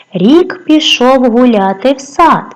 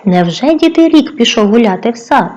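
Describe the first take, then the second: First: "Рік пішов гуляти в сад" read slowly and evenly, falling on "сад"; slow verse line with a falling end on "сад"; slow poem reading. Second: "рік пішов гуляти в сад" repeated as a doubting question to the class; teacher questioning the children, mock doubt; mock disbelief. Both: Shown as a demonstration.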